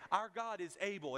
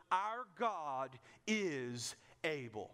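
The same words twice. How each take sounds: First: Said in the usual way. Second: Our God is able, drawn out slowly with weight on Our; a slow solemn proclamation of Our God is able; slow emphatic declaration. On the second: Shown as a demonstration. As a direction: lean into Our and stretch every word. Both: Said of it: "First thing they got straight was".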